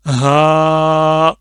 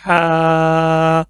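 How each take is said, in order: First: ہا from the middle of the throat; a light ہا from mid-throat; throaty ہا. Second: ہا breathed deep from the chest; a full, chesty ہا; ہا from low in the throat. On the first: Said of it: "گلے کے درمیان سے ادا ہوگا". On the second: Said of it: "اس ہا کو آپ نے موٹا کر کے پڑھنا ہے". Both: Shown as a demonstration.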